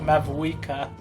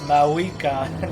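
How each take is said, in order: First: The name is said with a V sound. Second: The name is said without a V sound. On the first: The speaker calls it wrong. "not like Mavuika" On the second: The speaker calls it right. "her name is Maoika, You don't pronounce the V"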